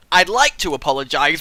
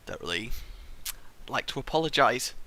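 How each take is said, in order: First: Said in the usual way. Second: Quiet mumbled false start; muttered. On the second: Shown as a demonstration. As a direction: mumble it under your breath.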